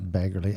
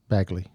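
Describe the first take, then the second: First: The name is said with three syllables. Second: The name is said with two syllables. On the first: The speaker calls it wrong. "not Baggerly. I keep saying Baggerly because that's how Omura says it" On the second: The speaker calls it right.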